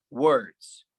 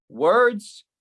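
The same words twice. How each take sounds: First: Said in the usual way. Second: "Words" pushed higher and louder; louder, higher echo. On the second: Acted. Poet throwing the word back, louder. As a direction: hit "Words" hard on the repeat. Echoed word, second take.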